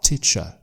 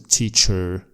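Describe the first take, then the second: First: The ending is a schwa with no R. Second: The final R sound is clearly pronounced. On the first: The speaker calls it right. "but teacher" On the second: The speaker calls it wrong. "not a teacher"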